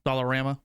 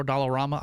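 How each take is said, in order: First: Dollarama with "rama" as RAM-uh; Dollarama, third syllable like "ram"; alternate pronunciation. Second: Dollarama with "rama" as RAH-muh; Dollarama, third syllable like "rah"; alternate pronunciation. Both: Shown as a demonstration. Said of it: "Don't know which one's correct".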